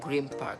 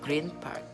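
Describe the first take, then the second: First: The sounds blend together through assimilation. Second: The sounds are kept separate and unchanged.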